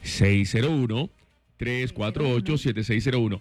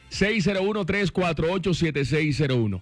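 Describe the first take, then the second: First: The number is said at a slower pace. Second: The number is said at a faster pace.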